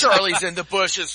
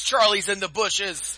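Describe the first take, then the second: First: Higher, loud shouted warning; war movie shout. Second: Slow, higher, loud dramatic warning; drawn-out war movie shout. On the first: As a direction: yell it like a panicked soldier. Hammed-up war movie quote. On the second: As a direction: stretch the warning out, slow and theatrical. Repeats quote, drawn out. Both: Pretend.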